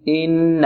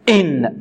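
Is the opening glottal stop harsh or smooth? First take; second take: smooth; harsh. First: The opening glottal stop is soft and smooth. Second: The opening glottal stop is jabbed out harshly. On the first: The speaker calls it right. "سهلة سلسة هكذا" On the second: The speaker calls it wrong. "بعض المبتدئين يقول ... لا هذا خطأ"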